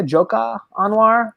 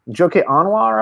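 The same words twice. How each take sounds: First: "Joka Anwar" with an open a ending on Joka; name said Joka Anwar. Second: "Joke Anwar" with Joke like the English word joke; name said Joke Anwar. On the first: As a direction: correct it to "Joka Anwar", first name two syllables. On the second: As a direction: say "Joke Anwar" as two plain English words. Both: Shown as a demonstration. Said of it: "if I'm pronouncing his name correctly".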